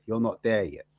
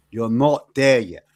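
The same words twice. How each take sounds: First: Said in the usual way. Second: "You're not there yet" repeated louder and slow; slower, emphatic repeat. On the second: Retold or imitated. Friend telling Ash he's not there yet, emphatic slow repeat. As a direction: lean on it the second time, slowly. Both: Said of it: "He said".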